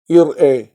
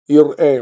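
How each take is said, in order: Both takes have the same delivery.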